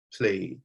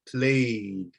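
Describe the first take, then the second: First: Played with a quiet soft D; soft D ending. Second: Played ending in a soft D. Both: Shown as a demonstration. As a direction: hold the mouth still on played. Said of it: "the mouth is holding its position".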